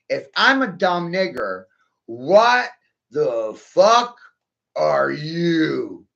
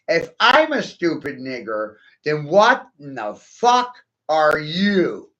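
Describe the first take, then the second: First: It is said slowly. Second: It is said at normal speed.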